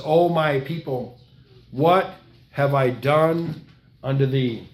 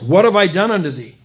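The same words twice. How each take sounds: First: Very slow, drawn-out and sorrowful; slow grieving plea. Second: Louder, crying out the repeated question; anguished cry. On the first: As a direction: stretch each word like a wounded father. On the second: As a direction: lift it into a pained outcry. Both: Acted. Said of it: "He says".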